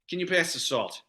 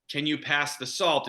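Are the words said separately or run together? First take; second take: run together; separately. First: The words are run together as one. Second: Each word is said separately and clearly. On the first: "It's all one word" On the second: "instead of being like"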